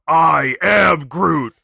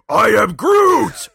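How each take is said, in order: First: It is said slowly, drawn out longer. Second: It is said briskly and angrily.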